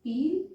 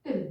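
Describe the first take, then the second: First: पील with a long, drawn-out ee; long vowel. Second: पिल said quickly, short i; short vowel. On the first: Teacher modelling long vowels for learners, lengthened पील. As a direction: hold the ee in पील. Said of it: "ई की sound लंबी जा रही है". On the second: Teacher contrasting vowels for learners, quick short पिल. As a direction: keep पिल brief on the i. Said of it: "पिल पढ़ के जल्दी आगे जा रहे हैं". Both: Shown as a demonstration.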